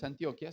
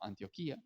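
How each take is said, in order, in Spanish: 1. El acento cae en el sonido 'o'. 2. El acento cae en el sonido 'i'. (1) "Que no es Antioquia" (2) "sino Antioquía"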